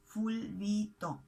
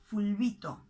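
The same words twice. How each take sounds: First: Fulbito drawn out slowly as ful-bi-to; slow syllable-by-syllable. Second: Said in the usual way. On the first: Shown as a demonstration. Teacher repeating Argentinian slang for learners, fulbito slow and syllable by syllable.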